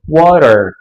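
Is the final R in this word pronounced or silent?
pronounced. The final R is clearly pronounced, curled back. This is the American way of saying it. "Enquanto no inglês americano, a gente vai pronunciar todos os R's"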